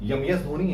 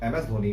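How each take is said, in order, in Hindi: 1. अक्षर M, y ध्वनि से शुरू होता है। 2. अक्षर M, सादे स्वर से शुरू होता है। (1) "अब यम एस धोनी है ये नहीं" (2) "एम एस धोनी है ना"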